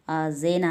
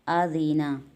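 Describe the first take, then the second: First: The middle vowel sounds like 'ay'. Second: The middle vowel sounds like a long 'ee'. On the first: The speaker calls it wrong. "मजहूल पढ़ने वाले इसे पढ़ते हैं आज़ेना। आज़ेना नहीं पढ़ना है" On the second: The speaker calls it right.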